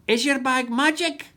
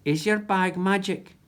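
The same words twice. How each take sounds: First: Higher, squawky parrot repeat; a parrot repeating Jack; parrot echo. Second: Said in the usual way. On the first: Acted. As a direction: mimic the words like a parrot. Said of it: "echoed MacBlether".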